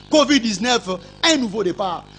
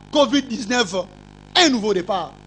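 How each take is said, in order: Both takes have the same delivery.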